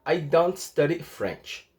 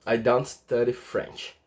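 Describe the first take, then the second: First: Said in the usual way. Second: Slow, careful I don't study French; teacher modelling the contraction; slow model repeat. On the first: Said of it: "vai ficar". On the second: Shown as a demonstration. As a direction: say it slowly so students can copy. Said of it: "demo repeat".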